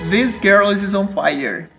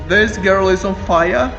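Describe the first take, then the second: First: The last word ends with an audible r sound. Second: The last word ends in an ah-like vowel, no r. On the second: "Se for britânico é fire. Ah, fire"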